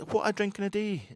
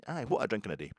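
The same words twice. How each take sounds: First: Mock Welsh. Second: Said in the usual way. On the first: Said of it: "He says".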